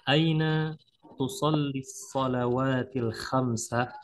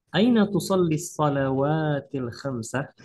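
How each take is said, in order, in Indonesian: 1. Kalimat dibaca lambat. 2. Kalimat dibaca agak cepat. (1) "Ana akan bacakan secara perlahan dulu" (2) "bacaan kedua agak cepat ya"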